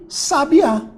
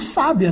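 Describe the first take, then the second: First: The stress is on the last syllable. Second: The stress is on the first syllable. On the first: It is a noun. "se eu trocar a minha sílaba tônica de lugar e botar o acento" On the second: It is an adjective meaning wise. "se eu trocar mais uma vez de lugar, vou colocar o acento aqui"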